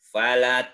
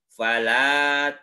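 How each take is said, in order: First: The vowel after the l is short. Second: The vowel after the l is held long. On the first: The speaker calls it wrong. "tidak begini" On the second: The speaker calls it right. "Lamnya dibaca panjang dua harkat"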